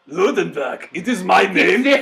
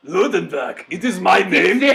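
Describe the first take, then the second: First: It is said with a put-on German accent. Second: It is said with a put-on German accent.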